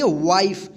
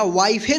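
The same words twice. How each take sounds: First: "वाइफ" as one syllable, silent final e; correct pronunciation. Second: "वाइफे" with final e sounded; wrong pronunciation. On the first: Teacher answers how to read it, "वाइफ" with silent e. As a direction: end "वाइफ" on a clean f. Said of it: "क्या पढ़ेंगे?". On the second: Teacher warns pupils against a misreading, "वाइफे" with extra vowel. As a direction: add an "ay" after the f in "वाइफे". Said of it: "वाइफे नहीं पढ़ेंगे". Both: Shown as a demonstration.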